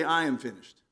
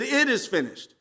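First: Low "I am finished", the contrasted wording; stress on I. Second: "It" punched high, then falling through "is finished"; stress on IT. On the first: Preacher showing what Jesus didn't say, "I" set apart, pitched low. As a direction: say "I am finished" lower, marking "I" as the wrong subject. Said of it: "you notice he didn't say". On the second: Preacher correcting the wording of Jesus' cry, "It" punched high. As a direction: hit the word "It" high and firm. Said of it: "He said". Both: Shown as a demonstration.

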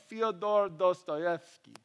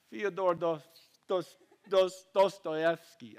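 First: Said in the usual way. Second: Halting, slow bad Russian accent. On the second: Shown as a demonstration. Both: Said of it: "It's like my really bad Russian accent".

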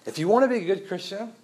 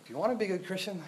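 First: Mock legalist proclaiming from the pulpit; bold legalist declaration. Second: A legalist whispering a rule; quiet legalist insinuation. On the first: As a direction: announce the rule with authority. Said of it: "So let me be clear". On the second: Acted. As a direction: lean in and murmur the condition. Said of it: "They say".

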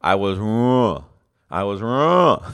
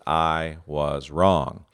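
First: Wrong swallowed, louder and strained, trailing into "ru"; mock struggle to say "wrong", the word never comes out whole; mumbled wrong. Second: Said slowly, each word weighted; I was wrong, drawn out calmly; slow and measured. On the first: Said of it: "it kept coming out like this". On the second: Retold or imitated. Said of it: "trying to say this phrase".

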